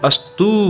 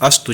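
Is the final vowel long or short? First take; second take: long; short. First: The final vowel is held long. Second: The final vowel is short. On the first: The speaker calls it wrong. "अगर दीर्घ दीर्घ ऊ होता तो हम अस्तु बोलते" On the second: The speaker calls it right. "हम लेकिन कहते हैं अस्तु"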